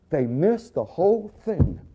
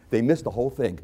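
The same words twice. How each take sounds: First: "missed the whole thing" stretched slowly and pitched high; slow, high, incredulous stress on "whole"; drawn-out emphasis. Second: Said in the usual way. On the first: Real, not acted. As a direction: drag out MISSED and WHOLE in exasperation. Repeats the line for emphasis.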